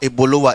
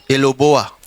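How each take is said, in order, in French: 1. Les syllabes arrivent dans l'ordre Ebolowa. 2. Les syllabes sortent mélangées, en Eloboa. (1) "our Ebolowa" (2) "they can't pronounce it well"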